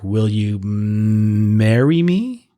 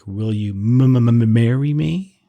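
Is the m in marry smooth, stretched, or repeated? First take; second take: stretched; repeated. First: The m sound in marry is stretched out. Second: The m sound in marry is repeated.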